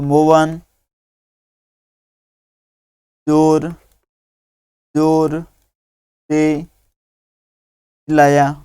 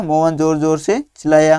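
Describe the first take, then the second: First: Very slow, word by word with long gaps; slow dictation. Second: Said in the usual way. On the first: Shown as a demonstration. Teacher dictating the sentence for pupils to copy, very slow. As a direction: dictate each word so children can write it. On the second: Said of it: "तो मोहन जोर जोर से चिल्लाया".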